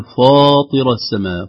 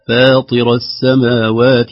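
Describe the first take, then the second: First: فاطر with the ف made thick; wrong, heavy ف. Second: Slow فاطر with a light ف and a heavy ط; correct tajweed. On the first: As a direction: show the mistake: a heavy ف in فاطر. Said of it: "لا نقول". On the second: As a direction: model فاطر, keeping the ف thin. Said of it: "ترقيق الفاء وتفخيم الطاء". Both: Shown as a demonstration.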